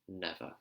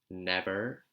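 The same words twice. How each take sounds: First: It is said in a British accent, ending in schwa. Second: It is said in an American accent. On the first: "British accent will be never. ... just ending on that ah sound" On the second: "In the American accent"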